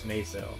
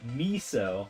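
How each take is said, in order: First: The word rhymes with the currency peso. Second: The word sounds like the soup miso. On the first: The speaker calls it right. "Rhymes with pesos" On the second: The speaker calls it wrong. "like you know the soup, and that bothers me"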